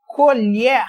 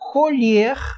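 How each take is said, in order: First: The stressed vowel is pronounced open. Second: The stressed vowel is pronounced closed. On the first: It names the utensil used for eating. "colher com timbre aberto é o que você usa aí para comer" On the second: It is the verb meaning to pick or harvest. "timbre fechado"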